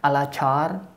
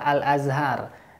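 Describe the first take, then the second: First: Al-Azhar is said with an altered, imitated pronunciation. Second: Al-Azhar is said with its standard pronunciation. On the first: The speaker calls it wrong. "Bapak tadi menyebutkan Al-Azhar" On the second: The speaker calls it right. "yang benarnya adalah Al-Azhar"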